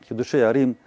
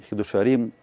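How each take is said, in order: No difference in how they are said.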